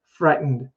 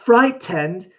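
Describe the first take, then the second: First: The T sound is very soft, barely heard. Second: The T sound is clearly pronounced. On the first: The speaker calls it right. "the T is so soft. We don't even hear it" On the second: The speaker calls it wrong. "It's like not frightened. Like British speakers will emphasize the T sound"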